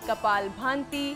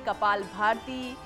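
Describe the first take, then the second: First: The second word has an added nasal sound. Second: The second word has an added r sound. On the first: "कई लोग कहते हैं कपाल भांति" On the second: "कई लोग कहते हैं कपाल भारती"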